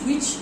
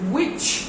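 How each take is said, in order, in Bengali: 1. শেষের ch ধ্বনিটি দুর্বল ও হালকা। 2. শেষের ch ধ্বনিটি শক্ত ও জোরালো। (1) "এরকম বললে হবে না" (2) "but you have to put pressure on ch"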